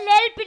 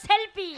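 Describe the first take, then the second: First: The word begins with an L sound. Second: The word begins with an S sound. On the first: The speaker calls it wrong. "আরে লেলপি না" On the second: The speaker calls it right. "বলো সেলফি।"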